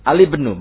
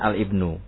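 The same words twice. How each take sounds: First: The article's l runs straight into the word. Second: The word's first vowel starts separately after the article. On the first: The speaker calls it right. "ketika dia termasuk di tengah" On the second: The speaker calls it wrong.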